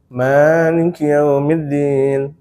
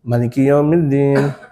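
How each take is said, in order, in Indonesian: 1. Vokal pertama dibaca panjang. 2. Vokal pertama dibaca pendek. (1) "Rakaat pertama panjang" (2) "Maknya itu pendek"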